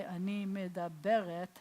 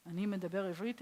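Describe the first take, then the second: First: Ani medaberet, slow, with the feminine ending meh-dah-BEH-ret; Hebrew demo. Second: Ani medaber ivrit, rising on ivrit, pronounced eev-REET; Hebrew demo. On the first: Teacher showing students how a woman says it, slow demo. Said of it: "you'd say". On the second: Teacher showing students how a man says it, careful demo. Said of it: "if you're a guy". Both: Shown as a demonstration.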